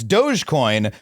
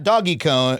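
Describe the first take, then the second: First: The first part sounds like 'dohj'. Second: The first part sounds like 'doggy'. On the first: The speaker calls it right. "It's Dogecoin" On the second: The speaker calls it wrong. "wrong stupid way"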